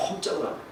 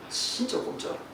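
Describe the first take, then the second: First: Said in the usual way. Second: A breathy aside as the wire won't budge; hushed whisper. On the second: Retold or imitated. Preacher telling the congregation about the stuck wire, whispering. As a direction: whisper it in dismay, barely voiced.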